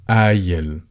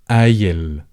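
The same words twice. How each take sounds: First: It starts with a glottal stop and has an ee. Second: The same.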